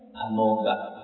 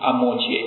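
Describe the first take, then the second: First: The last syllable is pronounced 'ga'. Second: The last syllable is pronounced 'che'. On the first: This follows the original Sanskrit sound. The speaker calls it right. "应该是那个嘎" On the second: This is the common local recitation. The speaker calls it wrong. "我们念嘛"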